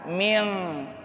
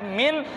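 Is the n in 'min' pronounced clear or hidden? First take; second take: hidden; clear. First: The n is hidden, nasal and back, like ng. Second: The n is pronounced clearly with the tongue tip. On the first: The speaker calls it right. "ikhfa itu artinya samar, tidak dibaca jelas" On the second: The speaker calls it wrong. "tidak dibaca min"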